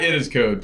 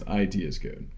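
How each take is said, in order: First: IT is said as the single word 'it'. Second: IT is said as two separate letters. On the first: The speaker calls it wrong. "It's not it is code. Please don't say that" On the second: The speaker calls it right. "It's I T is code"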